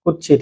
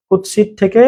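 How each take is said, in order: First: কুৎসিত said kutchhit, the ts turned to chh; dropped-voice colloquial কুৎসিত with a chh sound; colloquial pronunciation. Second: কুৎসিত said as written, kutsit with a clear ts; কুৎসিত spoken in the standard form, ts sound kept; formal Bengali কুৎসিত, kut-sit; standard pronunciation. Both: Shown as a demonstration. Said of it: "কুৎসিত থেকে কুৎসিত".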